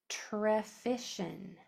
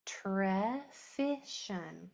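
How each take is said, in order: First: Trefishin said very slowly, syllable by syllable; slow stretched word. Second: Slow repeat. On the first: Teacher slowly modelling trefishin for students. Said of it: "Your word is". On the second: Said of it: "Kinda hard". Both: Shown as a demonstration.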